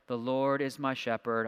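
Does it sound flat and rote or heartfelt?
flat, rote. It is recited flatly, like a memorized line.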